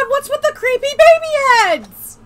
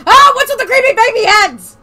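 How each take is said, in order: First: Shocked squeal. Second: Shocked. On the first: Repeat of the question. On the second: First take, shocked. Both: Acted.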